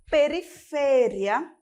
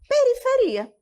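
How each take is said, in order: First: The word carries the Spanish stress pattern. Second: The word carries the Portuguese stress pattern. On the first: "Em espanhol, nós temos periferia" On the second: "Em português, nós vamos ter periferia"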